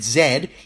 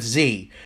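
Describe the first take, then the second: First: The letter is said as zed, Australian style. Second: The letter is said as zee, American style.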